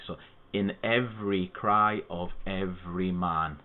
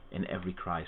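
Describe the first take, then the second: First: Slow, each syllable of "in every cry of every man" spaced out evenly; slow syllable count. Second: Said in the usual way. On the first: Shown as a demonstration. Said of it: "There's eight syllables". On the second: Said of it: "let's pick a line".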